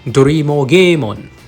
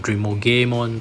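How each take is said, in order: First: The name begins with two syllables, 'Do-ri'. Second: The name begins with one syllable, 'Dream'. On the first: "that's the Japanese pronunciation of the name" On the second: "some English pronunciation will call this"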